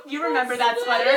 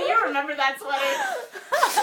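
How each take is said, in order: First: Loud, laughing through the question; half laughing it out. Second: High, slow, dissolving into laughter; laughing. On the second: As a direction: squeeze the words out between laughs. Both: Real, not acted. Rereads line while laughing.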